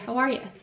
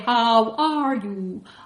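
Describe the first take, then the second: First: The vowels are softened in an Irish way. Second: The vowels are full and clearly pronounced. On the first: "we tend to soften those. ... I would just say" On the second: "maybe you should say"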